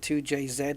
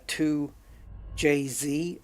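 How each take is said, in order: First: The last letter is said as zed. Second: The last letter is said as zee. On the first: This is the British way of saying it. "we we say Z" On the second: This is the American way of saying it. "if you guys in the States want to say"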